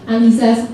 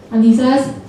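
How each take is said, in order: Both takes have the same delivery.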